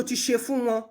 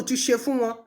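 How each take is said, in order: Both takes have the same delivery.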